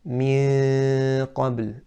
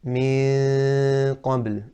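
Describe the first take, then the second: No difference in how they are said.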